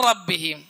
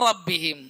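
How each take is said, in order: No difference in how they are said.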